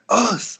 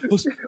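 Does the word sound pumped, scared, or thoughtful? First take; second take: pumped; scared. First: It is said in an energetic, fired-up way. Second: It is said in a timid, fearful way. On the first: The speaker is ready for hard training. "If you're kind of like ready and pumped to do some hard training, you're like" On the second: The speaker is afraid. "If you're scared, you're like"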